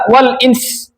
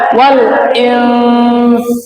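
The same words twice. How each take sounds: First: The final nasal hum is cut off short. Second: The final nasal hum is held and fades slowly. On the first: The speaker calls it wrong. "jangan sampai dibaca wal ins, jangan" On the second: The speaker calls it right. "Tapi wal ins. ... jadi meninggalnya pelan-pelan"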